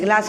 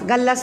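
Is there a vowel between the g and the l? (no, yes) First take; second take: no; yes. First: The g and l form one cluster. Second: A vowel is inserted between g and l. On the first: The speaker calls it right. "ग्लास म्हणायचे" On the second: The speaker calls it wrong. "गल्लास नाही"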